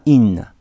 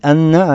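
First: The word begins with an 'i' vowel. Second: The word begins with an 'a' vowel. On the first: The speaker calls it right. "а «инна»" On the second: The speaker calls it wrong. "Не «анна»"

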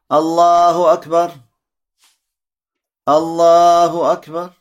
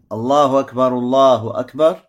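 First: Each phrase is said separately with a pause between. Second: Both phrases are joined as one continuous sentence. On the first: Each takbir stands as its own sentence. The speaker calls it wrong. "отделяют такбиры друг от друга... Так неправильно" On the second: Two takbirs form a single sentence. The speaker calls it right. "Соединяется первый и второй такбир как одно предложение... Вот так вот правильно"

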